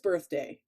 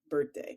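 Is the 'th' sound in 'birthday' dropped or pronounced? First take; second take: pronounced; dropped. First: The 'th' sound in the middle is pronounced. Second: The 'th' sound in the middle is dropped. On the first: This is the standard way to say it. "I know it's birthday" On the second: This is how the speaker habitually says it. "still say birthday"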